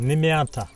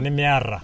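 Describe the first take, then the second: First: The middle consonant is a t sound. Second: The middle consonant is a rolled r sound. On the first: This is how others say the word. "you don't say like nimeata" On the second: This is how the word is said in Kajiado. "T in Kajiado is like rrrr"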